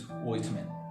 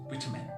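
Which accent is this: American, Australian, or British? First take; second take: Australian; British. First: It is said in an Australian accent. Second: It is said in a British accent. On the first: "Australian, it is almost the same, it is vitamin" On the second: "A British accent, uh, the actual pronunciation of the word is vitamin"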